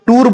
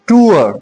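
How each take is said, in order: First: The vowel is one steady long sound. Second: The vowel glides from oo into uh. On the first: The speaker calls it wrong. "इसको टूर बोलते हैं अक्सर हम" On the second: The speaker calls it right. "टूर नहीं है टूअर"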